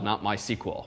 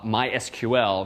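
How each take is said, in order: First: The name is said with fewer syllables. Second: The name is said with more syllables. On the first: This is the quicker way to say the name. "fewer syllables to say MySQL" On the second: This is how the company says its own name. "they do, in fact, pronounce themselves"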